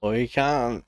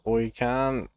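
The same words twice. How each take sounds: First: Hostile insult. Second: Friendly Aussie greeting. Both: Shown as a demonstration. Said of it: "that doesn't necessarily mean".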